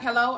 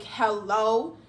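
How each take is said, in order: First: Said in the usual way. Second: HELLO drawn out with a rising end; a challenging "Hello?", stretched and lifted; pointed hello. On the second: Retold or imitated. Her pointed hello back, retold.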